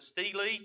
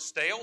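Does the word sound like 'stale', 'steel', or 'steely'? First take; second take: steely; stale. First: Two syllables with an 'ee' vowel, like steely. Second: One syllable with an 'ay' vowel, like stale. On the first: "some pronounce it steely" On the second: "Some pronounce it stale"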